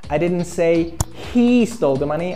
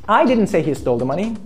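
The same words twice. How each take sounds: First: The stress falls on the word he. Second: The stress falls on the word I. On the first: A different person stole it. "I said another guy stole the money" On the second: Someone else said it. "Someone else said he stole the money"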